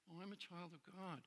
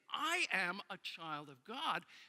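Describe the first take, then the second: First: It sounds casual and offhand, like a brush-off. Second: It sounds earnest, firm and deeply meant.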